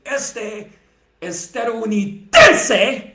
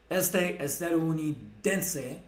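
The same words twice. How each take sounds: First: Estadounidense stretched slow, loud and high, ending in a laugh; mocking overstress on estadounidense; overemphasized word. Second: Estadounidense with the last two syllables dense leaned on; estadounidense, last two syllables stressed. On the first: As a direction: hammer estadounidense, last syllables dragged out. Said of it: "I really overemphasized that one". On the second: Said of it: "I literally emphasized the last two syllables". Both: Shown as a demonstration.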